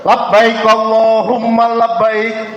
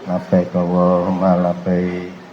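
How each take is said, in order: First: It is said loudly. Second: It is said quietly.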